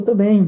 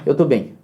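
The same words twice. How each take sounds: First: It is said in a warm, cheerful tone. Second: It is said in an irritated, dismissive tone. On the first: Everything really is fine. "graças a Deus, tô bem, tudo certo" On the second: Stop bothering me about it. "Tipo, não enche, eu tô bem"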